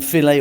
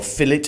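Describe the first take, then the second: First: It is said in a non-British way. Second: It is said in a British way.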